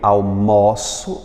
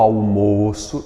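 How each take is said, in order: First: The stressed o vowel is open. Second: The stressed o vowel is closed. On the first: It is the verb meaning I have lunch. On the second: It is the noun meaning lunch.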